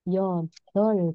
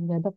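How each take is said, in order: First: The word ends with an L sound. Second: The word ends with a P sound. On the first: The speaker calls it right. "Jadi yodol, itu cara bacanya" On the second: The speaker calls it wrong. "bukan yodok ya"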